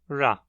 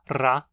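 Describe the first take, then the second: First: The r is a smooth alveolar approximant. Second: The r is a rolled alveolar trill. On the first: "a aproximante alveolar" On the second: "a vibrante alveolar"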